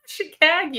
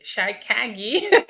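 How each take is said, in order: First: Chicago as "shih-KAG-ee", high and laughing; playful pronunciation. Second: Chicago said slowly as "shy-KAG-ee"; playful mispronunciation. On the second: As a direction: stretch Chicago into "shy-KAG-ee", rising at the end. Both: Shown as a demonstration. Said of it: "That's how I say it".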